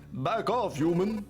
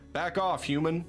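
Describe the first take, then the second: First: It is read in a put-on vampire voice. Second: It is read in a plain, normal voice.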